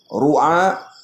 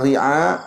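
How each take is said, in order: First: The first vowel is a 'u' sound. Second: The first vowel is an 'i' sound. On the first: "wa yajuzu dhammuha" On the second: "Dengan baca kasrahkan ra"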